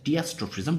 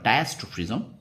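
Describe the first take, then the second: First: The first syllable sounds like 'dee'. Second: The first syllable sounds like 'dye'. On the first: The speaker calls it wrong. "যেভাবে তোমরা দুরকম উচ্চারণ করতে পারো" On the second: The speaker calls it right. "Actually এর উচ্চারণ হলো ডায়াস্ট্রোফিজম"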